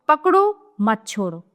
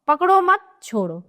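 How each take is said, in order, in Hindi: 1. पहले शब्द के बाद विराम है। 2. दूसरे शब्द के बाद विराम है। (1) "पहले वाक्य में पकड़ने और ना छोड़ने का अर्थ प्रकट हो रहा है" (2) "दूसरे में न पकड़ने और छोड़ देने का विपरीत भाव है"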